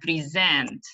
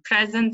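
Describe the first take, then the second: First: The stress is on the last syllable. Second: The stress is on the first syllable. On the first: It is used as a verb. "when it is verb, it's on the last syllable" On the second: It is used as a noun. "When the it's noun, so the stress is uh, on the first syllable"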